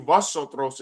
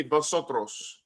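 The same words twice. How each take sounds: First: "vosotros" with Spanish vowels and rolled r; "vosotros" in textbook Spanish. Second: "vosotros" said slowly with Spanish sounds; slow, careful Spanish "vosotros". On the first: Teacher repeats the school Spanish word, plain Spanish. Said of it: "They teach you". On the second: Teacher demonstrates textbook Spanish word, slow and careful. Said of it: "Issacharites don't say". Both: Shown as a demonstration.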